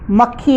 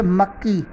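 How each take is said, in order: First: मक्खी said with a breathy aspirated kh; मक्खी, doubled k released with a clear puff of air; correct pronunciation. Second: मक्की said with a plain unaspirated kk; मक्की, soft doubled k with no breath puff; wrong pronunciation. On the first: Teacher giving the correct form, aspirated मक्खी. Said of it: "मक्खी होता है". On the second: Teacher demonstrating the wrong form, unaspirated मक्की. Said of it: "मक्की अशुद्ध उच्चारण है". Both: Shown as a demonstration.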